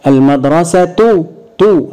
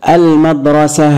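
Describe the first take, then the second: First: The word ends with a t sound and vowel. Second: The word ends with a soft h sound. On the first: The word is joined to what follows. "هتشكلت اتنطق التاء" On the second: The speaker stops on the word. "هقف عليها بالسكون، المدرسة اتنطقت هاء"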